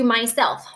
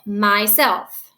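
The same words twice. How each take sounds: First: Said in the usual way. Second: "Myself" as two deliberate syllables, weight on self; stress on SELF. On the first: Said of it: "What, again, is stressed?". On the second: Shown as a demonstration. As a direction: lean on the second syllable of "Myself". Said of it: "It is self".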